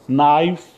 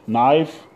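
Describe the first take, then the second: No difference in how they are said.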